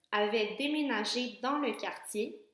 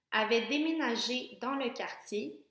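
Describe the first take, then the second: The two takes are said the same way.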